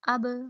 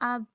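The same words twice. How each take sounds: First: The final b is released with a bouncing jolt. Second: The final b stops flat without any jolt. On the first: The speaker calls it right. "इस पे झटका आएगा" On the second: The speaker calls it wrong. "ऐसे नहीं करना"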